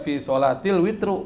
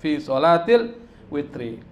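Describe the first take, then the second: First: The last word ends in a 'u' vowel. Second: The last word ends in an 'i' vowel. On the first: The speaker calls it wrong. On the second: The speaker calls it right.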